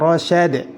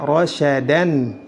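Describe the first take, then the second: First: The word ends in d. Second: The word ends in an. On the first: "Tidak boleh dibaca" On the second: "Tidak boleh dibaca"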